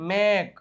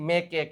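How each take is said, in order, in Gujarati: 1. શબ્દ k પર પૂરો થાય છે, કોઈ સ્વર વગર. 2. છેલ્લા k પછી વધારાનો સ્વર બોલાય છે. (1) "ઈ થતું નથી" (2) "મેકે કે એવું કઈ"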